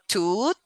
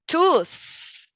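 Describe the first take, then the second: First: The word ends with a plain t sound. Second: The word ends with a th sound. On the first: The speaker calls it wrong. "it's not toot" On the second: The speaker calls it right. "it is tooth"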